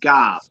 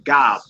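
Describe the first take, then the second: First: The word ends on the bare consonant. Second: The same.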